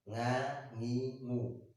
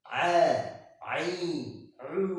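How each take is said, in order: First: Each syllable starts with a nasal ng sound. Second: Each syllable starts with a squeezed mid-throat sound. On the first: The speaker calls it wrong. "mereka mengucapkan a itu seperti eng ... ini salah" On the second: The speaker calls it right. "mengucapkannya adalah dari tenggorokan yang tengah"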